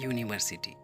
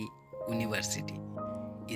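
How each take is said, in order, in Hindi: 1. यह व्यंजन 'yoo' ध्वनि से शुरू होता है। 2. यह सादे स्वर की ध्वनि से शुरू होता है। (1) "इसे आप पढ़ते हैं यूनिवर्सिटी, ... यह कॉन्सोनेंट साउंड देता है" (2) "ना कि यूनिवर्सिटी"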